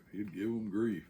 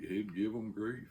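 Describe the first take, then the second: No difference in how they are said.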